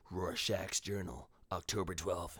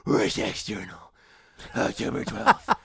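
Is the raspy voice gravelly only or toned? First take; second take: toned; gravelly. First: The raspy voice still carries a clear tone. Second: The voice is harsh gravel with no tone. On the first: The speaker calls it right. "there's tone to it. There's a voice" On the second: The speaker calls it wrong. "It's not just like"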